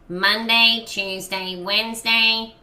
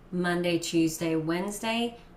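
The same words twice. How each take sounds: First: The sound is narrow and bright. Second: The sound is wide and open.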